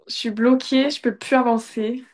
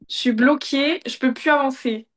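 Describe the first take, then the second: First: It is said in a whiny, depressed tone. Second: It is said in an angry, dark tone.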